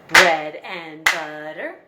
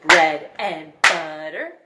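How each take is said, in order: The two takes are said the same way.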